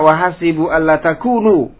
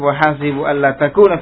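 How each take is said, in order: First: The last word ends with a 'u' vowel. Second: The last word ends with an 'a' vowel. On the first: The particle is read as a lightened form of the heavy one. "Dibaca juga dengan rafa" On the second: The particle is read as the infinitive-making one. "Yang pertama dibaca nasab"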